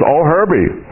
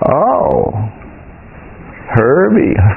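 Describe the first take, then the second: First: It is said in a plain, neutral tone. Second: It is said with a disapproving, knowing tone. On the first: "No, I didn't say it like that" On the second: "I was giving you an impression of what I believe about Herbie"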